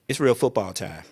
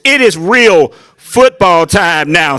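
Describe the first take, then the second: First: It is said at a normal, quiet volume. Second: It is yelled loudly like a coach.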